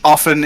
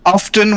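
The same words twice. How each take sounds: First: It is said in a plain, ordinary way. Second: It is said in a posh-sounding way. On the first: The speaker respects the listener. "if you're talking to literally anyone you respect" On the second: The speaker wants to sound refined. "when you want to sound posh"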